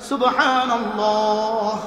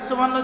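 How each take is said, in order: First: It is said slowly, followed by a pause for breath. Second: It is said hurriedly, run together with the next.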